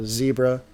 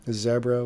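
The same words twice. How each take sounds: First: Said in the usual way. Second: Zebra with a short e, "ZEB-ra"; alternate pronunciation. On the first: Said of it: "instead of Zebra". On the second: Shown as a demonstration. Streamer correcting to the owner's pronunciation, short-e Zebra. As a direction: say Zebra to rhyme with Debra. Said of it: "he calls it Zebra instead of Zebra".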